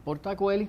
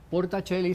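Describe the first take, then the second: First: It is pronounced just as spelled. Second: It is pronounced the Italian way. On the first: "como se lee" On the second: "sería en italiano"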